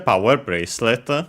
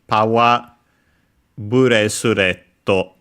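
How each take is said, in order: First: It is said with English pronunciation. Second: It is said with Japanese pronunciation.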